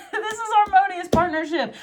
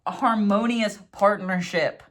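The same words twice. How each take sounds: First: Much higher, laughing through the words; laughing delight. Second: HARMONIOUS drawn out slowly and deliberately; slow emphasis. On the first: Tarot reader delighted by the partnership card, laughing. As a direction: squeal it with a giddy laugh. Delighted repeat of the card's meaning. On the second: Tarot reader announcing the Two of Water, emphatic. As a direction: spell out "harmonious" with slow weight. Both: Real, not acted.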